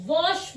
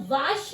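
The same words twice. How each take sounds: First: 'wash' as vawsh, rounded 'aw', slowly; correct pronunciation. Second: 'wash' misread as vaash, long 'aa'; wrong pronunciation. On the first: Teacher corrects the mistake, slow rounded 'wash'. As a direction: round and stretch the vowel in 'wash'. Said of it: "wash बोलते हैं". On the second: Teacher shows what we don't say, mispronounced 'wash'. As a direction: say 'wash' with the vowel of car. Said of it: "हम wash नहीं बोलते हैं". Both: Shown as a demonstration.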